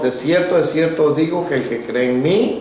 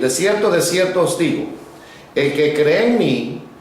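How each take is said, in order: First: It runs on without a pause after 'digo'. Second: There is a long pause after 'digo'. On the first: The speaker calls it wrong. "Muy corrido" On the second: The speaker calls it right. "Ahí hay una pausa"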